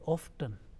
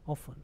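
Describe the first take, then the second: First: The T sound is pronounced. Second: The T sound is left out. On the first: "it is also pronounced in the world as a often" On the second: "making a T letter silent"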